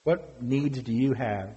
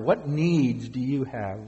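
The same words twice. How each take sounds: First: Said in the usual way. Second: Slower, letting the question sink in; a slower, weighing repeat; slow, reflective repeat. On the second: Shown as a demonstration. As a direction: ask again slowly so they dwell on it. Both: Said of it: "Dwell upon that".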